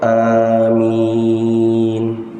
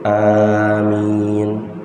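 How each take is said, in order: First: The second vowel is stretched out very long. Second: Both vowels are held for the same short length. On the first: "amin panjang" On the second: "amin dua harokat dua harokat"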